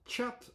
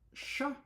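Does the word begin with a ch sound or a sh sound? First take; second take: ch; sh. First: It begins with a t-sh sound. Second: It begins with a plain sh sound. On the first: "The other pronunciation is chat, so it starts with a T" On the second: "The French word chat is just pronounced as sh with one sound"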